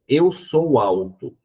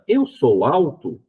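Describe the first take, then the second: First: The pitch falls at the end. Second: The pitch rises at the end. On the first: It is a statement. "Se eu digo eu sou alto" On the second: It is a question. "ou faço uma pergunta"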